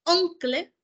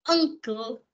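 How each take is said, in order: First: "uncle" said "oonkle", with the U read as written; spelling pronunciation. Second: "uncle" said "ankle", with an a sound at the start; English pronunciation. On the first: Teacher shows students a letter-by-letter reading. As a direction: pronounce "uncle" with an oo vowel, as it is spelled. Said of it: "Si usted no me dice". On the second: Teacher gives students the English sound of the word. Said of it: "no hay problema". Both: Shown as a demonstration.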